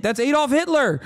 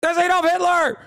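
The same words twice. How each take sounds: First: Raised, exasperated pitch. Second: Much higher, near shouting; exasperated outburst. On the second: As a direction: repeat it even higher, outraged. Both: Real, not acted.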